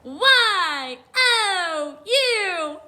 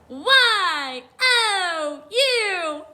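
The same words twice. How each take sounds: First: It is spelled in a peppy cheering voice. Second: It is spelled in a peppy cheering voice.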